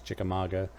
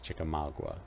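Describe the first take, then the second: First: It is said with a Northern US pronunciation. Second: It is said with a Southern US pronunciation. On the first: "I think the North pronounces it as Chickamauga" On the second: "I think the South pronounces it as Chickamauga"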